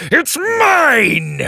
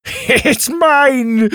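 First: Higher, louder crowing shout; gleeful triumph. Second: High, loud gloating cry; gleeful triumph. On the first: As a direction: hold the prize up and crow. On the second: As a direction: crow over the prize. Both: Acted. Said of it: "Drake laughed".

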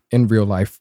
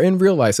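First: Said in the usual way. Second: "real life" stressed, pitched higher; emphasis on REAL LIFE. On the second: Real, not acted. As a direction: lift and underline the words "real life". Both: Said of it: "emphasis on that in real life".

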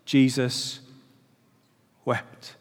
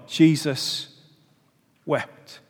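First: Softer, slow and grave, long pause before "wept"; solemn quote. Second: "Jesus" falls, then "wept" drops much softer after a pause; a quiet, grieving repeat; solemn echo. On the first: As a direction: let "Jesus" hang, then drop "wept" almost to nothing. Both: Real, not acted. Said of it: "that little tiny verse".

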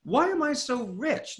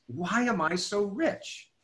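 First: Why am I so rich asked high and slow with rising tune; higher, slow wonder. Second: Slow, musing question; slow wondering. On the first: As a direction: float the question up in wonder. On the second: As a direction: ask yourself slowly, wondering. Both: Shown as a demonstration. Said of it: "my next thought was".

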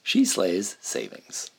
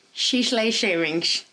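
First: She Slays Savings, each s crisp and clear, slowly; careful slow. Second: She Slays Shavings with sh on Slays and Savings; tongue-tied slip. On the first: Shown as a demonstration. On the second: Real, not acted. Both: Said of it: "You say it".

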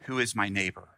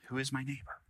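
First: Said in the usual way. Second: Softer repeat. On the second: Shown as a demonstration. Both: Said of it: "Is the question God is asking you today".

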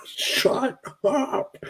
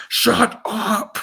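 First: High mock echo through a laugh. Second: High put-on voice, a hint of a bookshelf guy; mock shusher. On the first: Echoing the bookshelf guy's line while laughing. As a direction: giggle the line back. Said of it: "who's like". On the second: Quoting the guy behind the bookshelf, high mock voice. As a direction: hiss it like a fed-up extra.

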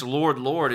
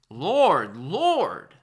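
First: Said in the usual way. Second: Loud, high and pleading; emphatic cry to be recognised; passionate plea. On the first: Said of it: "it's emphatic". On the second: Shown as a demonstration. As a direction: cry out the name like a desperate believer. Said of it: "It's very passionate".

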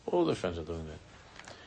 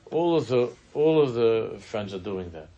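First: Softer, lower, muttered afterthought; quiet mocking repeat; quiet echo. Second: Pressing and louder, pleading her case; mock insistent teen; insistent daughter. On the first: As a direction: drop it to a mumbling repeat. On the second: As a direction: insist like a teen who wants in. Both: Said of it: "she's telling that all of her friends".

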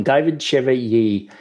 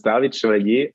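First: Chevalier said the English way, SHEV-uh-lee-ay; an Australian try at Chevalier; anglicised name. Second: Native French Chevalier, stress on the end; French pronunciation. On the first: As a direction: Chevalier with English vowels, stress early. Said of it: "he says his name a lot better than me". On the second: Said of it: "can you just pronounce your name". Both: Shown as a demonstration.

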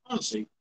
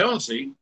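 First: Low muttered "honestly" under the breath. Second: Rising exasperated "honestly". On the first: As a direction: mutter "honestly" to yourself, resigned. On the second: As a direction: throw up your hands on "honestly". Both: Real, not acted. Exasperated at partner's music.

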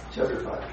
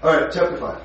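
First: "Chapter five" whispered under the breath; breathed "Chapter five" aside. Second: Said in the usual way. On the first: Real, not acted. Repeated under his breath.

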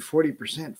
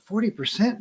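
First: Said in the usual way. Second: Forty percent, pitched up with a rising, disbelieving tune; mild mock disbelief, rising; incredulous. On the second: Shown as a demonstration. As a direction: echo "forty percent" as if it's outrageous. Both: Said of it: "that sounds like a ton".

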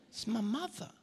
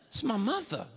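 First: Much softer, embarrassed excuse; hushed mock embarrassment; sheepish murmur. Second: Mildly sheepish aside to the crowd; awkward, played for comedy; mock embarrassed explanation. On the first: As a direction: say it small, under your breath. Same excuse repeated, much softer. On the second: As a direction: explain away an embarrassing heckler. Mock embarrassed reply to heckler.

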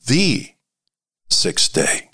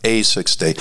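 First: "the" stretched as "thee", then a pause; stress on THE. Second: "a" said as a full, stressed "ay". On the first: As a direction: hold "the" as a long "thee" before dropping to "sixth day". Contrasts article the with a. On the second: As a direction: lean on the article "a" before "sixth day". Contrasts article a with the. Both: Shown as a demonstration.

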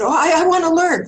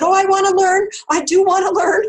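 First: Higher, much louder, suddenly keen; mock eager student. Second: Much higher, louder, hammed-up eagerness; over-keen mock student pleading; eager. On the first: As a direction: blurt it out, anxious to please. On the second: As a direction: insist you want it. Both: Eager reply to healer.

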